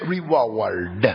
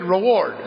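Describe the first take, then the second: First: It is said in a hillbilly accent. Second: It is said in a plain, neutral accent.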